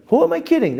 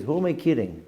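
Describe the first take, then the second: First: Pitched way up, scolding himself; high exclaimed catchphrase. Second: Quiet muttered catchphrase. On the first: Teacher demoing his catchphrase, high and exclaimed. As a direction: fling the question up high in disbelief. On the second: Teacher repeating his catchphrase softly to himself. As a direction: drop it down and keep it inward. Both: Shown as a demonstration. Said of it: "That's the term I used to use".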